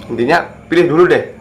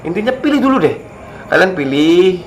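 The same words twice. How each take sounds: First: Said in the usual way. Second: Much higher, pressing the point; emphatic urging. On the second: Real, not acted. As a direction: push the advice up high. Repeated advice, urging the viewers. (desakan bernada tinggi)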